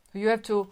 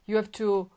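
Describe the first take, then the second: No difference in how they are said.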